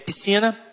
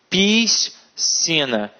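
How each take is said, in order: First: The s and c make one sound. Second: The s and c are sounded separately. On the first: The speaker calls it right. "É piscina e nascer" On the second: The speaker calls it wrong. "fazem uma hipercorreção"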